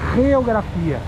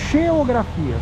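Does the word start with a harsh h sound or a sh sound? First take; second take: harsh h; sh sound. First: The word starts with a harsh throaty h sound. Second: The word starts with a soft sh sound. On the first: This is the Spanish form of the word. "Se fosse em espanhol, haveria o G e pronunciado como geografia" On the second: This is the Galician form of the word. "Então o som é de X, de che"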